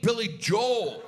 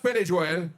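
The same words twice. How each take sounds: First: The name is pronounced the familiar American way. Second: The name is pronounced the Irish way. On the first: This is the name as the speaker always knew it. The speaker calls it right. "oh, you mean [name]?" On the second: This is how someone from Ireland says the name. The speaker calls it wrong. "no, it's Billy Joel"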